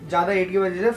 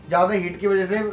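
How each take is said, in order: Both takes have the same delivery.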